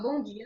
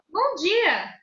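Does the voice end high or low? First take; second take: low; high. First: The voice ends low, sounding serious. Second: The voice ends high, sounding friendly.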